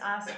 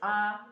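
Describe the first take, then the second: First: The ending is said with a final s sound. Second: The ending is said without any final s sound. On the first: The speaker calls it wrong. "it's not is, as, is" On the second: The speaker calls it right. "it's is, a, is"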